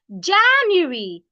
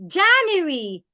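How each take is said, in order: No difference in how they are said.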